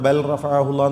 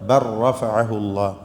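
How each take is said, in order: First: The l is pronounced clearly before the r. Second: The l merges into a doubled r. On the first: The speaker calls it wrong. "എന്ന് പറയരുത് കേട്ടോ, തെറ്റാണ്" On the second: The speaker calls it right. "പിന്നെ എങ്ങനെ പറയുക?"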